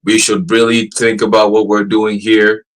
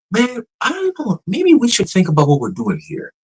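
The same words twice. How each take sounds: First: Slow, measured, formal machine delivery; stiff robot voice. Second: Casual humanlike AI. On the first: Imitating the AI's first stiff answer, slow and formal. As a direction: read it like a careful assistant bot. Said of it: "it went from". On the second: Imitating the AI sounding human now, high and unsure. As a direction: drift up like a person shrugging it off. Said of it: "Now it's". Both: Retold or imitated.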